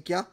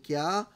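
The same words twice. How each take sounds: First: क्या said abruptly, very short; sudden, startled क्या. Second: क्या stretched out with a rising end; forceful, drawn-out क्या. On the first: Lecturer showing astonishment after a start, क्या short and sudden. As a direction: fire off a quick क्या as if caught by surprise. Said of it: "आप एकदम से बोलते हैं". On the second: Lecturer showing an annoyed demand to explain, क्या drawn out and rising. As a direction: lean on क्या and pull it upward, questioning. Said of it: "थोड़ा ज़ोर से बोलते हैं, खींच के बोलते हैं". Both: Shown as a demonstration.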